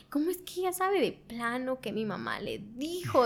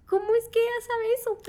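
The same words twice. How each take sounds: First: Said in the usual way. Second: High, loud imitation of crying disbelief; mock tearful wail. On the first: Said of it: "y empecé a llorar". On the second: Woman retelling her tears at the pastor's words, mock tearful wail. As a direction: wail it in a high voice, half laughing at yourself. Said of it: "empecé a llorar y yo decía".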